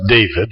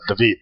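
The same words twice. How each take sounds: First: The name is said with an English pronunciation. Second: The name is said with a Hebrew pronunciation. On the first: "in English it becomes David" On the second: "Hebrew they would have said David"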